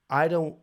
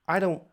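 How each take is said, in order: Both takes have the same delivery.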